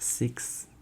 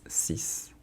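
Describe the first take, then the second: First: The word does not end in a plain s. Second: The word ends in a plain s sound. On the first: The speaker calls it wrong. "it's not six" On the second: The speaker calls it right. "it's a S at the end"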